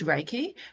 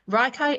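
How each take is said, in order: First: The word is said like 'ray-kee'. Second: The word is said like 'rye-kye'. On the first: This is the proper name of the practice. The speaker calls it right. "Raikai is Reiki" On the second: The speaker did not yet know the word. The speaker calls it wrong. "I was trying to pronounce it"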